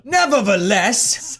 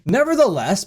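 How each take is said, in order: First: Slow, hammed-up British accent; British accent attempt. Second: Said in the usual way. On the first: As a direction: draw it out in mock British. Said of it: "doing this in a British accent". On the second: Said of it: "I'm not gonna do it".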